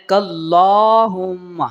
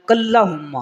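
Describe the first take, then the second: First: "کلہم" slow, with a long drawn middle vowel; correct reading. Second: "کلہم" read quickly with a short, unstretched middle; wrong reading. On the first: Teacher shows students the correct reading, slow stretched "کلہم". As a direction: stretch the "لا" in "کلہم" and hold the hum. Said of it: "بلکہ آپ نے پڑھنا ہے". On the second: Teacher shows students how people often read it, wrong short "کلہم". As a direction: say "کلہم" hurried, the long vowel cut short. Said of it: "یہ غلط طریقہ ہے". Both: Shown as a demonstration.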